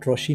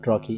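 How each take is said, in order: First: The middle consonant is an 'sh' sound. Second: The middle consonant is a 'k' sound. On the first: The speaker calls it wrong. "इसको ट्रोशी नहीं बोलना है" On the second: The speaker calls it right. "इसको ट्रॉकी"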